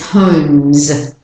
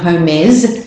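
First: The m and final z sounds join directly. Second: An extra vowel separates the m and final s. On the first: The speaker calls it right. "it's homes, because M and z are not identical or alike" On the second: The speaker calls it wrong. "So it's not homes"

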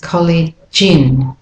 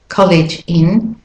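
First: The words run together smoothly. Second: The words are said separately.

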